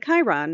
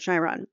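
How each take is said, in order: First: The word starts with a hard K sound. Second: The word starts with a soft sound. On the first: The speaker calls it right. "sounding like a K. Chiron, like a hard C or a K" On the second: The speaker calls it wrong. "not a Chiron"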